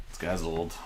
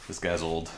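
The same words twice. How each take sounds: The two takes are said the same way.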